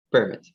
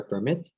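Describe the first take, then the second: First: PERmit, first syllable strong; noun-style "permit"; "permit" stressed on PER. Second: PerMIT, second syllable strong; verb-style "permit"; "permit" stressed on MIT. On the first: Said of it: "the stress is on the first syllable". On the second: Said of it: "the stress is on the second syllable". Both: Shown as a demonstration.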